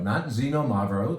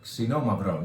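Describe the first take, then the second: First: Xenomavro with "zen" at the start; the wrong Xenomavro, set against the correct one; old wrong pronunciation. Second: Xinomavro with the sound "ksee" at the start; the correct Xinomavro, set against the old mistake; correct pronunciation. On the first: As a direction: show the old mistake: ZEN-o-mavro. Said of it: "That's how we said it for a long time". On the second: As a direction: say Xinomavro the right way, ksee-no-MAV-ro. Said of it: "That's how we said it". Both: Shown as a demonstration.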